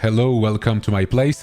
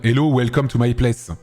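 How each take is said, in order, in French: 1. Anglais avec un léger accent français. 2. Anglais avec un fort accent français. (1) "on parle anglais avec un accent français" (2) "on peut faire un accent encore plus fort français"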